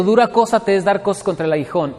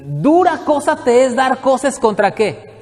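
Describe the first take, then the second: First: Said in the usual way. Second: Slow, higher, weighty reading; preacher intoning a verse before explaining it; solemn scripture quote. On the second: Shown as a demonstration. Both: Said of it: "¿Qué quiere decir esto?".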